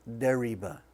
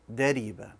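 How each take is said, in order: First: The r is a soft English-style r. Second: The r is a light, thin tap. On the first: The speaker calls it wrong. "Don't pronounce it as dariba with an English R" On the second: The speaker calls it right. "when it has a kesra, it's going to be light"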